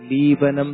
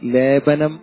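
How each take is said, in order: First: The first vowel is a long 'ee' sound. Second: The first vowel is a long 'e' sound. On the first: The speaker calls it wrong. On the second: The speaker calls it right.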